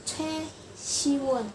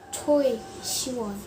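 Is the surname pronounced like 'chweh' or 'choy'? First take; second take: chweh; choy. First: The surname sounds like 'chweh', without an oy sound. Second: The surname sounds like 'choy', with an oy sound. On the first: The speaker calls it right. "Harusnya namanya [name]" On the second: The speaker calls it wrong. "bukan Choi Siwon"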